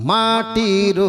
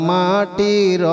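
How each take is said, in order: Both takes have the same delivery.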